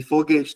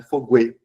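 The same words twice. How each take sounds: First: Said in the usual way. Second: Foguete said as fo-gwe-te with a clear gw; wrong pronunciation foguete with a spoken u; foguete with the u sounded. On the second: Shown as a demonstration. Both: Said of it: "não é foguete".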